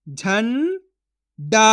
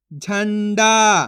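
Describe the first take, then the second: First: झंडा split as "झं", long pause, "डा"; syllable by syllable. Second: Said in the usual way. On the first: Shown as a demonstration. Teacher sounds out झंडा for learners, syllable by syllable. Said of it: "एक एक अक्षर का उच्चारण करके". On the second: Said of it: "तो मिलके बन जाएगा".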